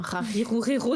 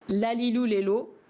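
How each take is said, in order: First: The consonant is a throaty French R. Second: The consonant is a clear L sound. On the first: "le prononcer comme un R, parce que vraiment les Japonais ils comprennent pas" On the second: "il vaut mieux le prononcer comme un L"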